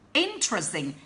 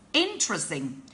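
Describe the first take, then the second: The two takes are said the same way.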